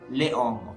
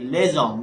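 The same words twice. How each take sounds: First: The s stays silent before hommes. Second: The s links as a z sound. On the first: The speaker calls it wrong. "not les hommes" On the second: The speaker calls it right. "so it will be les hommes"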